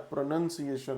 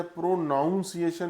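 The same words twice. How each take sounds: First: प्रोनंसिएशन with a short "nun" sound, no ow; प्रोनंसिएशन corrected, calmly settled; correct pronunciation. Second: प्रोनाउंसिएशन said with "nown" like pronounce; प्रोनाउंसिएशन as the incorrect "pro-nown-ciation"; wrong pronunciation. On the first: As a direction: say प्रोनंसिएशन as "pro-nun-ciation". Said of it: "प्रोनंसिएशन होता है". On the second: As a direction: stress the mistaken प्रोनाउंसिएशन with the ow sound. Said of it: "नहीं होता है". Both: Shown as a demonstration.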